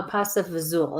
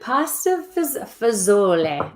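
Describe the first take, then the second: First: Fazool ending on OOL; clipped-ending pronunciation. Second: FAZOLA with a voiced final vowel; full-vowel ending. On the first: Giving her own way to say it, fazool with no end vowel. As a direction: drop the final vowel, say fazool. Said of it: "is how I say it". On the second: Reading the dish name aloud, fazola ending on a sounded vowel. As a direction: say fazola out to its last syllable. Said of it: "Well, it depends on how". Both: Shown as a demonstration.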